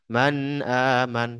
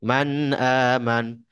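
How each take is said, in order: Both takes have the same delivery.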